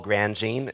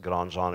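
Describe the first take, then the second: First: The name is said with an English pronunciation. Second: The name is said with a French pronunciation. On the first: This is how the speaker says his own name. "but I don't" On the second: This is an acceptable alternative the speaker does not use. "although that is French. you can pronounce it Grandjean if you like"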